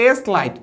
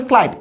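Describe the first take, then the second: First: "এস লাইট" as two pieces, letter name S then লাইট; split blend. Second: "স্লাইট" as one syllable, s running straight into l; blended in one go. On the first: Teacher showing pupils the wrong reading, "এস লাইট" split in two. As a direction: break "এস লাইট" after a full "es". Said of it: "এখানে আমি বলতে পারবো না". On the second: Teacher showing pupils the right reading, "স্লাইট" blended as one. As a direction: join the sl of "স্লাইট" with no "es". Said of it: "এখানে বলতে হবে". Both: Shown as a demonstration.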